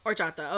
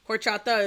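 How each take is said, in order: First: "horchata" said with no H, as "or-CHA-ta"; silent H. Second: "Horchata" with an audible English H; sounded H. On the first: Shown as a demonstration. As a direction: drop the H and open "horchata" on the O. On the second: Real, not acted. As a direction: start "Horchata" on a breathed H sound. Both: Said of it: "don't pronounce the H".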